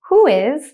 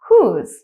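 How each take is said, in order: First: Both words are said fully and separately. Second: The two words merge into one contracted syllable.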